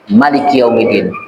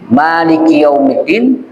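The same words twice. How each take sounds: First: The first vowel of Maliki is kept short. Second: The first vowel of Maliki is drawn out long. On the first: Allah is the king of the Day of Judgement. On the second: Allah is the owner of the Day of Judgement.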